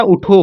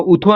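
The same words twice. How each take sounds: First: उठो with a retroflex aspirated ठ; correct retroflex th. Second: उठो with a dental aspirated t, "u-tho" as in थ; tongue on the teeth for the middle sound of उठो; wrong dental th. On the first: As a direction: curl the tongue back for the ठ in उठो. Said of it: "उठो होता है". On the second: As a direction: say उठो as if spelt उथो. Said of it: "उठो नहीं होता". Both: Shown as a demonstration.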